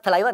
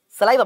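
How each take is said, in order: First: Saliva said lisped, as thuh-LYE-vuh; mock the lisped saliva, th for s; wrong saliva. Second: Saliva said cleanly as suh-LYE-vuh; correct saliva. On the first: Teacher showing students the wrong way, saliva lisped as thaliva. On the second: Teacher correcting students, saying saliva with a clean s. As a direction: say saliva with a clear s sound. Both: Shown as a demonstration. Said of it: "It's not saliva, it's saliva".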